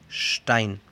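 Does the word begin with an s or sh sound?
sh. The word begins with an sh sound. This is how most German speakers say it. "Un ejemplo con ST sería Stein"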